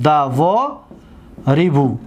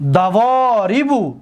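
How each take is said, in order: First: دوا ریبو in separated pieces; teacher breaking up دوا ریبو for learners; syllable-by-syllable. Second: دواریبو as one word, slowly, with "vo" held long; teacher's drawn-out whole-word model of دواریبو; joined-up slow model. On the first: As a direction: say دوا, pause, then lower ریبو. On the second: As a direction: stretch the middle of دواریبو without breaking it. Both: Shown as a demonstration. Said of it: "دقت بتید".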